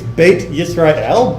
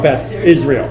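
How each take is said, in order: First: The first word ends with a plain t sound. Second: The first word ends with an English th sound. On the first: The speaker calls it right. "just pronounce it like a T" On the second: The speaker calls it wrong. "there is no Beth Israel"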